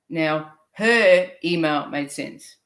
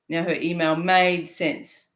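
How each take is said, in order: First: The stress falls on the word her. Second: The stress falls on the word made.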